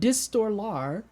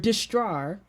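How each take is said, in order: First: The name is said with the extra syllable included. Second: The name is said with one syllable missing. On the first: The speaker calls it right. "Where's the lar?" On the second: The speaker calls it wrong. "Is there a syllable that I just been missing"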